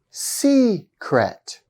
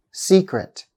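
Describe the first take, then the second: First: "Secret" drawn out with a high, long first syllable; slow, stressed first syllable. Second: Said in the usual way. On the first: Shown as a demonstration. Teacher giving a two-syllable noun example, slow stress demo. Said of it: "I'll say each of them twice and slowly". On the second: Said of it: "I'll say each of them twice".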